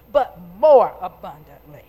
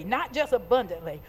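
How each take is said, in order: First: "more" hit loud and low; emphasis on more. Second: Said in the usual way. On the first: Shown as a demonstration. Preacher stressing God gave more than enough, emphatic "more". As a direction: punch "more" loudly, then let "abundantly" follow. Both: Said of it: "Put some emphasis on that".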